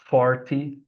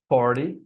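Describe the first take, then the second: First: The middle T is pronounced as a clear T. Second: The middle T is softened, not a clear T. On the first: This is a general, non-American form. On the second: This is the American standard form.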